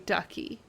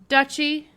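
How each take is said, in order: First: The middle consonant is a 'k' sound. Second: The middle consonant is a 'ch' sound. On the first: The speaker calls it wrong. "every time I see it, I want to say ducky" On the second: The speaker calls it right. "That's how you say it"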